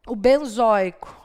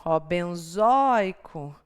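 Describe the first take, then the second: First: Benzoico with the oi said clearly; benzoico read out. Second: Benzoico slowed and drawn out. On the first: Teacher to class: benzoico read out. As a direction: say benzoico, o and i apart. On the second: Teacher to class: benzoico said slowly. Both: Shown as a demonstration.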